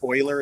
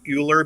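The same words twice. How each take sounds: First: The name is read not as it is spelled. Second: The name is read as it is spelled. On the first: The speaker calls it right. "is how you pronounce that" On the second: The speaker calls it wrong. "It looks like it would be"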